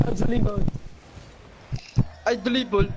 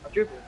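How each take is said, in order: First: I dribble, louder and higher; hyped boast. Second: Said in the usual way. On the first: Shown as a demonstration. Bragging about dribbling to teammates, hyped boast.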